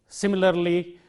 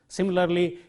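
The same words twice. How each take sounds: No difference in how they are said.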